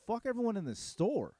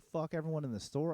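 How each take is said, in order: First: High, disbelieving question thrown back; retold outraged double-take, pitched up; incredulous echo. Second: Said in the usual way. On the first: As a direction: repeat it as if you can't believe he said it. Echoes the boast back in disbelief.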